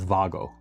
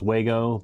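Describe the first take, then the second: First: The word begins with a V sound. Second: The word begins with a W sound. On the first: This is how German speakers say it. "the German pronunciation is Vago" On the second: This is how English speakers say it. "most of the English-speaking world, it's Wago"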